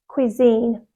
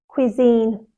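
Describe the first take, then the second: The two takes are said the same way.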